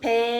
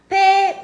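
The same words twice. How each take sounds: First: The word is said on a low pitch. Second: The word is said on a high pitch. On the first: "이렇게 낮게 읽고" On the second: "한 개 높은 소리다"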